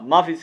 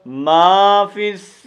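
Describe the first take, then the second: First: The vowel in 'ma' is cut short. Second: The vowel in 'ma' is drawn out. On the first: The speaker calls it wrong. "यहाँ बहुत बड़ी गलती करते पड़ती है ... तो ये गलत है" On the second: The speaker calls it right. "मा को एक अलिफ के मुताबिक हमने क्या करना है, लंबा"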